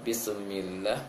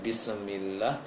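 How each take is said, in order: Both takes have the same delivery.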